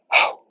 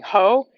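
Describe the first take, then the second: First: It is breathed out as an aspirated whisper. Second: It is said out loud with full voice. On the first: The speaker calls it right. "you're going to say ho, and you're going to feel breath on your hand" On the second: The speaker calls it wrong. "instead of saying ho"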